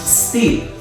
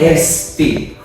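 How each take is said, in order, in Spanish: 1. La palabra empieza directamente con el sonido s. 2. Hay una vocal e extra antes de la s. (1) "le vamos a ahorrar la E" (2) "No vamos a decir steep"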